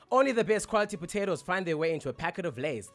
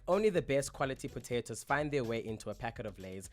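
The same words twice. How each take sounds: First: It is read in a polished presenter voice with pauses. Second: It is read in a casual, everyday speaking voice. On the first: "if you unlock your, pre- your presenter voice, it'll probably sound something like this" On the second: "in my natural voice, I would read this like"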